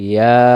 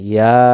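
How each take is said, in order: Both takes have the same delivery.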